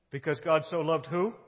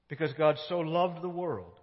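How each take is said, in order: First: Who? rising as a question to the room; asking the congregation. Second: Said in the usual way. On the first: Shown as a demonstration. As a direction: toss the word who up to the listeners.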